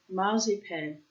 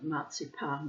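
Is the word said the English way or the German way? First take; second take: English; German. First: The word is said in an English way. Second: The word is said in a German way.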